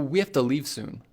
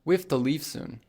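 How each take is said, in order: First: 'Have to' is blended into one word, 'hafta'. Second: 'Have to' is blended into one word, 'hafta'.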